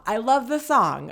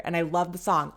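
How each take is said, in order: First: "love" stressed, pitched higher and louder; emphatic. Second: Said in the usual way. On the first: Real, not acted. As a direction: lean hard on "love" and raise the voice. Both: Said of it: "I love the song, okay?".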